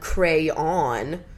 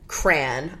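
First: Two syllables, the second rhyming with dawn. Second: One syllable that rhymes with man. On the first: "With two syllables where the second syllable rhymes with dawn" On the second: "with one syllable rhymes with man"

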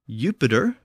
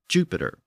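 First: The word begins with a Y sound. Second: The word begins with a J sound. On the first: This is the older Latin form. "the Y sound began to shift to a brand new J sound" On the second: This is the later changed form.

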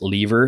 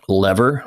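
First: It is said with a British pronunciation. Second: It is said with an American pronunciation.

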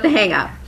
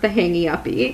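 First: Each word is said without added syllables. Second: Each word ends with an added 'ee' syllable. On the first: "But The Hang Up" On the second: "I want it to be pronounced The Hangy Uppy"

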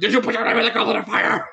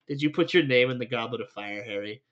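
First: The question is asked aggressively. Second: The question is asked calmly.

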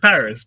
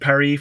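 First: It is said with a plain English pronunciation. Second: It is said with a French-style pronunciation. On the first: The speaker calls it right. "you say Paris because that's what it is" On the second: The speaker calls it wrong. "No one says"

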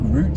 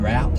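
First: The vowel sounds like the one in 'boot'. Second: The vowel sounds like the one in 'out'. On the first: "route sounds like R-O-O-T" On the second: "route sounds like R-O-U-G"

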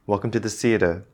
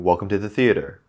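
First: Theater ends without a clear R sound. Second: Theater ends with a clear R sound. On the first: The speaker calls it wrong. "Maybe at first you used to say" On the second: The speaker calls it right. "you have to remember to say that R sound and then you do"

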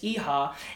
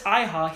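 First: The name is pronounced the Japanese way. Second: The name is pronounced the English way. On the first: This matches the name's Japanese origin. The speaker calls it right. "If he's Japanese, the pronunciation is Iha" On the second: This is an anglicized version of the name. The speaker calls it wrong.

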